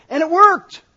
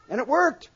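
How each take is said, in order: First: A burst much louder and higher; excited exclamation. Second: Said in the usual way. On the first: Real, not acted. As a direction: shout it out, amazed. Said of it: "exclamation repeated". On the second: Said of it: "repeated softer".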